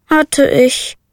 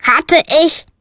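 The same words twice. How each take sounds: First: Sighing. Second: Raven's croaked question, higher; croaking. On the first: Little witch sighs to the raven about her broom, sighing. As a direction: breathe it out, resigned. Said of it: "seufzte die kleine Hexe". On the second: The raven Abraxas echoes the witch's words, croaking. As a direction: croak it back puzzled like a raven. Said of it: "krächzte Abraxas". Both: A narrator's reading.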